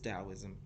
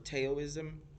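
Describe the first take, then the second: First: The word begins with a D sound. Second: The word begins with a hard T sound. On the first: The speaker calls it right. "It's Taoism" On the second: The speaker calls it wrong. "I would pronounce the word wrong because it starts with a T"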